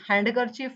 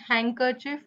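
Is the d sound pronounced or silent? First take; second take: pronounced; silent. First: The d sound is pronounced in the middle. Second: The d sound is silent in the middle. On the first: The speaker calls it wrong. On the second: The speaker calls it right.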